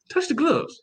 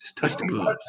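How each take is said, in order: First: High, sing-song order; playful high-pitched coaching; mock instruction. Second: Hushed conspiratorial whisper; sly whispered bargain. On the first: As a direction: chirp it like a cheeky reminder. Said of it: "They probably gonna tell him". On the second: Retold or imitated. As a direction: whisper it like a secret deal. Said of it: "You like".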